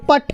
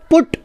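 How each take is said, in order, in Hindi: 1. स्वर 'but' में 'uh' जैसा सुनाई देता है। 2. स्वर छोटे 'oo' जैसा सुनाई देता है। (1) "इसे आपको कहना चाहिए पट, लेकिन ये नहीं हो" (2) "इस यू का उच्चारण है ऊ की तरह"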